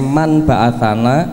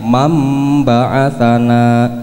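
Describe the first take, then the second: First: An n sound comes before the b. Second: An m sound comes before the b. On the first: This is how the word is written. "Tulisannya man ba'athana" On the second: This is how the word is actually recited. "macane mam ba'athana"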